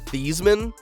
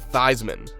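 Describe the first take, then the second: First: The name does not rhyme with Heisman. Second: The name rhymes with Heisman. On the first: This is the family's original pronunciation. "his family name is really pronounced Theismann" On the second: This pronunciation was adopted for a trophy campaign. "so his name would rhyme with Heisman"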